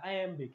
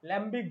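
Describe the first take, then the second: First: The word begins with an 'eye' sound. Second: The word begins with an L sound. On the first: The speaker calls it right. "এটা আইএমবিক" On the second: The speaker calls it wrong. "ল্যাম্বিক বলে ফেলো না"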